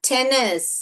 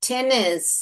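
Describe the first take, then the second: Both takes have the same delivery.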